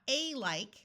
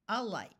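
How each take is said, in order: First: The first vowel is a full, emphasized A. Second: The first vowel is a weak short U. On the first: The speaker calls it wrong. "not a like" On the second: The speaker calls it right. "most of the time it will be alike"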